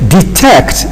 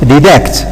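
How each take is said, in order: First: The first t sounds like a t. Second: The first t sounds like a d. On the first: The speaker calls it right. "Same thing" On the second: The speaker calls it wrong. "It cannot be detect"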